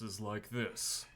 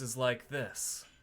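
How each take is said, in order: First: The voice sounds lowest, drawn from the pelvis. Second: The voice sounds drawn from the back ribs. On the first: "my pelvis voice is like this" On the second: "the back of the ribs voice is like this"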